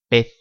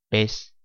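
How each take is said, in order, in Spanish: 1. La z final suena como la th del inglés. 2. La z final suena como una s.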